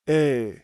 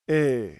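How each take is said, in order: No difference in how they are said.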